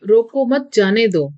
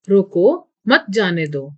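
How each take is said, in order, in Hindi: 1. यह बिना किसी विराम के बोला जाता है। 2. roko के बाद विराम है। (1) "यह एक अस्पष्ट वाक्य है" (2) "रोको के बाद वाक्य बोलने वाले को कुछ देर ठहरना है"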